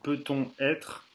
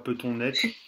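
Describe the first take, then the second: First: The two words stay separate, with no linking n. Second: The n sound links into the next word. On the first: The speaker calls it right. "on fait pas la liaison. On dit" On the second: The speaker calls it wrong. "On dit pas"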